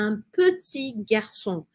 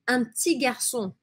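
First: Every syllable is pronounced separately. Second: Some syllables are dropped and run together. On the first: This is how learners tend to say it. The speaker calls it wrong. "Ela não fala" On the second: This is how French is actually spoken. The speaker calls it right. "A Claire fala"

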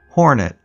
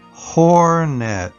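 First: The word is said quickly. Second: The word is said slowly. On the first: "followed by saying it fast again" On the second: "followed by slow one time"

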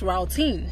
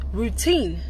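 First: The first vowel sounds like the 'ow' in 'out'. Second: The first vowel sounds like the 'oo' in 'boot'. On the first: The speaker calls it wrong. "not routine" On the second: The speaker calls it right.

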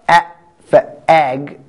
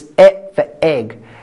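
First: The vowel is an open 'a' as in cat. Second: The vowel is an 'e' as in bed. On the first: The speaker calls it wrong. "It's not at for ag" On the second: The speaker calls it right. "it's E for egg"

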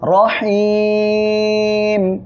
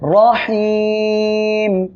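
First: The vowel before the final m is drawn out long. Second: The same.

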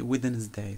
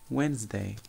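First: The d sound in the middle is pronounced. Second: The d sound in the middle is silent. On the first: The speaker calls it wrong. "we don't pronounce D. We don't say Wednesday" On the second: The speaker calls it right. "So we say Wednesday"

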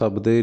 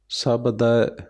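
First: The word ends in an 'e' vowel. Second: The word ends in an 'ai' vowel. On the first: The speaker calls it wrong. "ਸਬਦੇ ਨਹੀਂ ਕਹਿਣਾ" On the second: The speaker calls it right. "ਦੱਦੇ 'ਤੇ ਦੁਲਾਵਾਂ ਲੱਗੀਆਂ"

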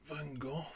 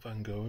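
First: The name is said in a British accent. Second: The name is said in an American accent.

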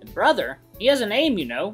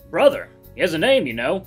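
First: The voice is lighter and higher. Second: The voice is heavier and less light. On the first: The speaker calls it right. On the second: The speaker calls it wrong.

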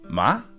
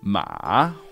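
First: The pitch rises from middle to high. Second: The pitch dips down and then rises. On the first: "Second tone goes from your midpoint... all the way up to first tone level" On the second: "the big down up one"

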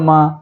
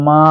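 First: The vowel is short and quick. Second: The vowel is drawn out long. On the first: "এভাবে এটা দ্রুত পড়বো" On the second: "এভাবে এক আলিফ টেনে পড়বো"

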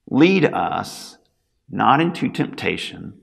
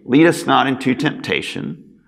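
First: The words break with a pause after 'lead us'. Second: The words run on with no pause. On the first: It asks God to lead us and be with us. The speaker calls it right. "put a comma after "lead us" and pause after saying those first two words. So it would sound something like this" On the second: It asks God not to lead us into temptation. The speaker calls it wrong. "as is normally done when this prayer is prayed in church"

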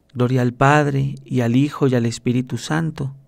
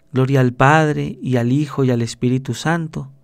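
No difference in how they are said.

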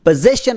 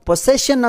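First: The first consonant after the vowel is a z. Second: The first consonant after the vowel is an s. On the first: The speaker calls it right. "ಇದರಲ್ಲಿ letter S ಅನ್ನು ಝ್ ಶಬ್ದ ತೊಗೊತೀವಿ" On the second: The speaker calls it wrong. "ಈ ಪದವನ್ನು ತುಂಬ ಜನ ಪೊಸೆಷನ್ ಅಂತ ಉಚ್ಚಾರಣೆ ಮಾಡ್ತಾರೆ. ಹಾಗೇನು ಇದು ತಪ್ಪಾಗುತ್ತೆ"

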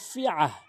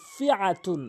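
First: The word ends with a soft h sound. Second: The word ends with an -un sound. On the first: The reciter stops on this word. "ওয়াকফ করলে ফি আহ" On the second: The reciter continues without stopping. "তা দুই পেশতুন"

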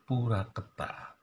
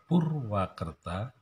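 First: No w sound follows the first syllable. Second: A w sound follows the first syllable. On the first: This is a simplified village way of saying it. "membuang ya, konsonan W di bagian depan" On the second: This is the full original form of the name. "dari kata Purwakerta"

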